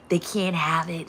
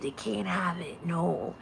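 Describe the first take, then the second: First: Said in the usual way. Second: Much softer, hushed and secretive. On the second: Acted. Hoarder keeping the toy secret, in a hushed voice. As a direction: say it like a secret kept from them.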